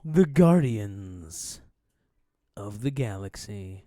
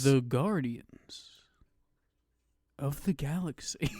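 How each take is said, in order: First: Slow title with long pause; dramatic movie title. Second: Whispered title with long pause; long pause before of the Galaxy; dramatic movie title. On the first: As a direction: hold a long pause after Guardians. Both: Shown as a demonstration. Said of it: "you have to put a pause for, like, a while".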